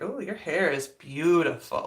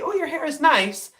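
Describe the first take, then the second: First: It sounds flirty, drawn out and quieter. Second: It sounds friendly, plain and casual.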